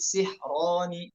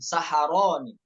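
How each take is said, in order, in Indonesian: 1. Ada vokal i, lalu h tanpa vokal. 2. Ada vokal a setelah s dan h. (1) "sihroni ya dibaca kasroh, sinnya ... H-nya dibaca eh, dibaca sukun" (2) "bukan saharoni"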